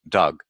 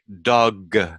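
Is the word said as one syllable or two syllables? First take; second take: one syllable; two syllables. First: The word is said as one syllable. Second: The word is said as two syllables. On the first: The speaker calls it right. "when it really sounds like this" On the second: The speaker calls it wrong. "sometimes I will hear them say dog"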